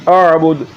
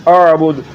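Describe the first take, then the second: The two takes are said the same way.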